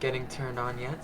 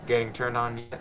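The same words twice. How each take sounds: First: It is read in a put-on character voice. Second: It is read in a plain reading voice. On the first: The speaker calls it right. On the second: The speaker calls it wrong.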